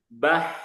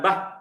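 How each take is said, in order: First: Audible breathy air flows out with the sound. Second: There is no audible air flowing out. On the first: The speaker calls it right. "jadi ada anginnya" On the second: The speaker calls it wrong.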